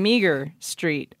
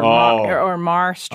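First: The name is said with two syllables, like meager. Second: The name is said with one syllable, like mar. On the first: The speaker calls it wrong. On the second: The speaker calls it right.

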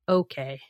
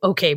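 First: It is said warmly, with a smile. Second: It is said curtly and gruffly.

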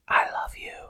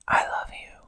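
First: It is said in a normal speaking voice. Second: It is said in a whisper.

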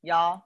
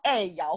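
First: It is said coldly in a haughty tone. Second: It is said as a friendly casual greeting.

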